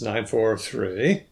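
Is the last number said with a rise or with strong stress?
rise. The voice rises at the end of the group. The whole group will be remembered better. "a rising boundary at the edge of the third word"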